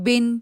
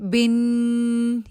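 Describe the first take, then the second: First: The final n sound is kept short. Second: The final n sound is held long. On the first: The speaker calls it right. "उसको नॉर्मल तरीके से पढ़ेंगे" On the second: The speaker calls it wrong. "यूं करके उसको लंबा नहीं करना"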